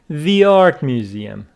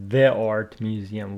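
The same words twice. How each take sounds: First: 'The' is said like 'thee'. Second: 'The' is said like 'thuh'. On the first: The speaker calls it right. "it says the art museum" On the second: The speaker calls it wrong. "not the art museum"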